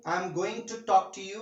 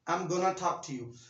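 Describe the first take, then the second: First: 'Going to' is said in full, two words. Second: 'Going to' is contracted into 'gonna'. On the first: "एक बड़ा लंबा sentence हो गया" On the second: "simple इसको कहेंगे I am गोना talk to you"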